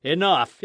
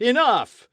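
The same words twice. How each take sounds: First: Crowd shout. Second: Louder crowd shout. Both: Acted. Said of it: "cried some".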